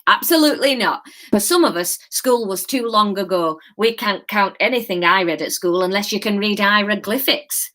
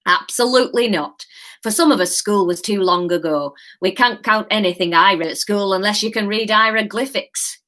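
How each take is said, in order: First: Lightly voiced reassuring Yorkshire old man; a hint of a kindly Yorkshire gent. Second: Put-on a light Yorkshire old man, reassuring. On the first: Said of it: "Yorkshire. That's what you're getting". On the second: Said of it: "reassuring old man accent".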